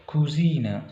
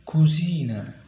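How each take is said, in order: No difference in how they are said.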